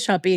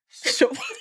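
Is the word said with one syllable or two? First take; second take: two; one. First: The word has two syllables, ending in 'ee'. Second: The word has one syllable, with no ending vowel. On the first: The speaker calls it wrong. "I would say shoppy" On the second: The speaker calls it right.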